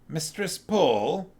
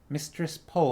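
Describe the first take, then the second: First: The voice is more gravelly. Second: The voice is less gravelly.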